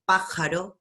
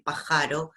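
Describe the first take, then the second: First: Pájaro with a strong PÁ; stress on first syllable. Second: Pajaro said as pa-JA-ro; shifted middle stress. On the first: Teacher contrasting two stresses, first-syllable stress on pájaro. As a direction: punch the start of pájaro. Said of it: "No es lo mismo decir". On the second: Teacher contrasting two stresses, middle stress on pajaro. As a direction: move the punch to "ja" in pajaro. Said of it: "que decir pajaro". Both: Shown as a demonstration.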